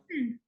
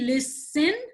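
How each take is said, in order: First: The stress is on the first syllable. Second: The stress is on the second syllable. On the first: The speaker calls it right. "the last syllable is not stressed" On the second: The speaker calls it wrong. "Did I say listen?"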